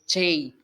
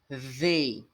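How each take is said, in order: First: The word starts with a 'ch' sound. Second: The word starts with tongue between the teeth. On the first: The speaker calls it wrong. "a forma de pronunciar não é Che" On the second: The speaker calls it right. "com a língua no dente e falando zei. Aí vai ficar mais ou menos assim"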